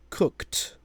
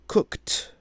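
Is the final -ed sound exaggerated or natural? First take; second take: exaggerated; exaggerated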